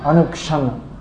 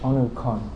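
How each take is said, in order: First: The middle sound is pronounced 'ksh'. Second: The middle sound is pronounced 'kh'.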